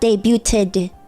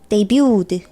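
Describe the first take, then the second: First: The t sound is clearly pronounced. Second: The t sound is left silent. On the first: The speaker calls it wrong. "Not debuted" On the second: The speaker calls it right. "the end of debuted is silent"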